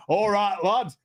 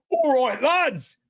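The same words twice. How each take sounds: First: Higher-pitched mock Yorkshire dwarf; Yorkshire accent. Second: High, hammed-up London lad; London accent. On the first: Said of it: "Don't forget Yorkshire". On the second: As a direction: call it out in a stock London accent.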